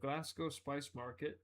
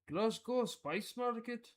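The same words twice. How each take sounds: First: It is said in the speaker's normal accent. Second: It is said in an attempted Scottish accent.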